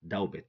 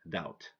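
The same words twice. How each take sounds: First: A B sound is heard before the final T. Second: No B sound is heard before the final T. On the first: The speaker calls it wrong. "Don't say doubt" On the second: The speaker calls it right. "So we say debt, doubt"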